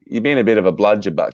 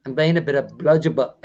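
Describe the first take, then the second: First: Native Aussie phrase, given for copying; Australian model. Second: Lower, put-on Aussie voice; attempted Australian accent. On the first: Tutor teaching the host slang, native Australian accent. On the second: Host repeating his tutor's phrase, attempted Australian accent. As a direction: copy the Australian slang, low. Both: Shown as a demonstration. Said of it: "what was the last one?".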